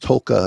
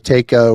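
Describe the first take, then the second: First: The name is said as 'Tulka'. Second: The name is said as 'Taka'. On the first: This is believed to be the proper way. The speaker calls it right. "but it's Tulka, I believe is the per, per pronunciation of it" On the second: This is how most people say it. The speaker calls it wrong. "what people say it"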